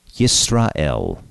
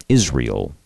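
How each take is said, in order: First: "Yisrael" in Hebrew, with separate syllables; Hebrew pronunciation. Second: Said in the usual way. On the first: Shown as a demonstration. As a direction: say "Yisrael" the Hebrew way, starting with "yis". Hebrew name beside English form.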